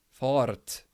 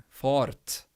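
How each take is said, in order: The two takes are said the same way.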